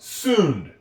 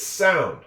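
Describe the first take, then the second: First: The vowel is pronounced like oo. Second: The vowel is pronounced like ow. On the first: The speaker calls it wrong. "This is not sound" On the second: The speaker calls it right. "It's sound"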